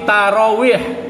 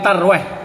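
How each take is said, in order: First: The word is said with three full syllables. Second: The word is squeezed into two syllables. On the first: The speaker calls it right. "tapi tarawih" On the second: The speaker calls it wrong. "bukan tarwih"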